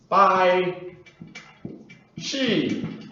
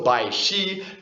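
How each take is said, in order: First: The syllables use a different tone pattern. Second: Bai rises, then Shi is high and level. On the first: This would be a different name or word. "as opposed to" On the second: This is the speaker's actual name. "second tone, first tone, rising tone, high even tone"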